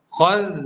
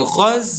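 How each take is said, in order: First: The final sound is made with tongue out. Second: The final sound is a z, tongue inside. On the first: The speaker calls it right. "lidah terkeluar" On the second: The speaker calls it wrong.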